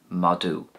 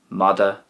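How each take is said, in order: First: It is said the Ulster way. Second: It is said the Connacht way. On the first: "and Ulster"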